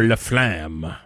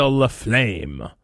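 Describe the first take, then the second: First: LaFlamme drawn out, rhyming with "clam"; alternative pronunciation. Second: LaFlamme drawn out, rhyming with "flame"; first pronunciation guess. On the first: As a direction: say LaFlamme slowly, with a short A as in "clam". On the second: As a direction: say LaFlamme slowly, with a long A as in "flame". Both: Shown as a demonstration. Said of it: "however she pronounces it".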